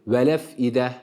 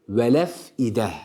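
The two takes are said the same way.

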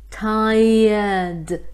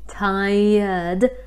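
No difference in how they are said.

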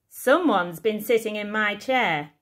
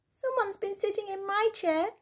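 First: It is said in a big, booming voice. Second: It is said in a squeaky little voice.

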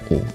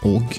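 First: The word ends on the vowel, no g. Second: The word ends with a g sound. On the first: "sometimes it's just o" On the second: "sometimes it's og"

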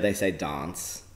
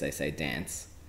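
First: It is said in a South Australian accent. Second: It is said in a general Australian accent.

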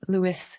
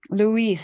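First: The second syllable is a short 'is' sound. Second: The second syllable is a long 'ees' sound. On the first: The speaker calls it wrong. "It's that little extra Lewis" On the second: The speaker calls it right. "Think of peace"

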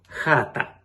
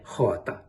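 First: The first vowel is a central, open a. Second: The first vowel is a back, o-like vowel. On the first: This is how the local dialect says it. "звук «а» середнього ряду" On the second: This is how Dnieper-area dialects say it. "а не заднього, як у надніпрянських діалектах"

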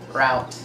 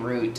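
First: The word rhymes with 'out'. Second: The word rhymes with 'boot'. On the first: This is the speaker's original American pronunciation. "That's exactly what it is" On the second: This is the pronunciation the speaker picked up in South Africa. "ever since I've been in South Africa, I find myself saying route"

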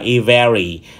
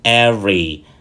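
First: The word is said with three syllables. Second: The word is said with two syllables. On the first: The speaker calls it wrong. "thường bị phát âm sai" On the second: The speaker calls it right. "nó chỉ có hai âm tiết thôi"

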